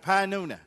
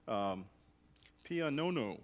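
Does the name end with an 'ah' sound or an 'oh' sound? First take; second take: ah; oh. First: The name ends with an 'ah' vowel. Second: The name ends with an 'oh' vowel. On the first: The speaker calls it right. "got it, Pianona. ... we'll pronounce it that way" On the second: The speaker calls it wrong. "I didn't really get the pronunciation down. It was like Pianono"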